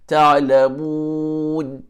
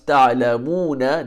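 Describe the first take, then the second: First: The long vowel is held noticeably longer. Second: The long vowel is held for a normal length. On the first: The reader stops on this word. "if you choose to stop there ... It becomes a medium mad" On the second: The reader continues into the next word. "If you continue, it becomes ... The mu is mad asli"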